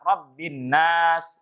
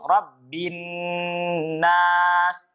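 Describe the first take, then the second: First: The nasal n sound is cut short. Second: The nasal n sound is held long. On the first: The speaker calls it wrong. "Jangan sampai dibaca cepat" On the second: The speaker calls it right. "Gunnah di ayat terakhirnya itu"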